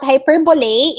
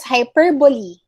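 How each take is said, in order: First: "hyperbole" ending in LAY, hy-PER-bo-lay; wrong pronunciation. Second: "hyperbole" as hy-PER-bo-lee; correct pronunciation. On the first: Teacher quoting the mistake, hy-per-bo-lay. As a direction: close "hyperbole" on an eh sound. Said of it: "it's not hyperbole". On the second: Teacher correcting the student, hy-per-bo-lee. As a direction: end "hyperbole" on a long ee. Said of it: "it's hyperbole". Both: Shown as a demonstration.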